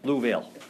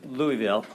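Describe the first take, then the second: First: The name is said the way locals say it. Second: The name is said the way outsiders say it. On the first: This is how residents say the name. The speaker calls it right. "they say Louisville. That's how they say it there in Louisville" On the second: This is not how residents say the name. The speaker calls it wrong. "They don't say Louisville"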